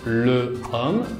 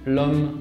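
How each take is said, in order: First: The article vowel is kept before the noun. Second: The article vowel is dropped and joined on. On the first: The speaker calls it wrong. "no decimos" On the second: The speaker calls it right. "pero decimos"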